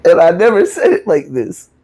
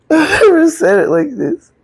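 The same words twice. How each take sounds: First: Said in the usual way. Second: A teary laugh breaking over the words, much higher; laughing through tears. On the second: Real, not acted. Admitting to the audience she never told it this way, laughing through tears. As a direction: let the emotion crack into a laugh. Repeats the line, overcome.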